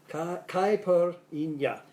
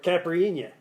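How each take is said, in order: First: Mock Southern accent. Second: Mock New York accent. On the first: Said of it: "as they say in the South". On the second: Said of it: "as they say in New York". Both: Shown as a demonstration.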